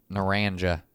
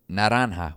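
First: "Naranja" as nuh-RAN-juh; Anglicized pronunciation. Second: "naranja" as nah-RAHN-hah; Spanish pronunciation. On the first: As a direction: say "Naranja" with an English j and flat American a. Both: Shown as a demonstration. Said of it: "you know what they call it?".

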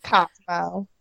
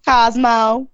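First: A softer, quieter Southern Cosmo, KAHZ-mo with a rise; Southern accent. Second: Cosmo with a Southern drawl on the o, KAHZ-moh; Southern accent. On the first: Repeating Cosmo for the roommate's acting class in Southern accent. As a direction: try Cosmo again, drawled and soft. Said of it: "how to say Cosmo in a Southern accent". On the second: Asked by co-host, she says Cosmo in a Southern accent. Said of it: "Cosmo in a Southern accent". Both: Shown as a demonstration.

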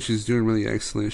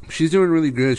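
First: Said in the usual way. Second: Emphatic praise. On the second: Real, not acted.

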